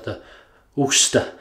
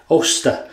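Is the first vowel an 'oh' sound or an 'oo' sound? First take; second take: oo; oh. First: The first vowel sounds like 'oo'. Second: The first vowel sounds like 'oh'. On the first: The speaker calls it wrong. "I was calling it the Uster, the Ooster" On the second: The speaker calls it right. "It's actually called the Oster. I hope I'm saying it right now"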